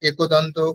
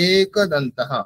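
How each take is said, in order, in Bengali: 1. প্রথম স্বরধ্বনিটি হ্রস্ব ও দ্রুত করে বলা হয়। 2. প্রথম স্বরধ্বনিটি দীর্ঘ করে বলা হয়। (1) "যদি তাড়াতাড়ি বলে দিই তাহলে কিন্তু হবে না" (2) "দীর্ঘ সময় ধরে উচ্চারণ করতে হবে"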